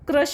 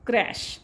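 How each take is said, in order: First: The vowel sounds like the u in cup. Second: The vowel sounds like the a in cat. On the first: The speaker calls it wrong. "क्रश वाचायचं नाही ह्याला" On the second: The speaker calls it right. "It's क्रॅश"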